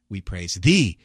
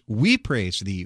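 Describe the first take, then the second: First: The stress is on "thee". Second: The stress is on "we".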